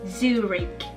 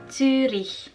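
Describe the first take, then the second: First: The final sound is a hard k. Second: The final sound is a breathy h. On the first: The speaker calls it wrong. "Yang seharusnya tidak begitu" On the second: The speaker calls it right. "tidak dibaca sebagai huruf K, tetapi sebagai huruf H"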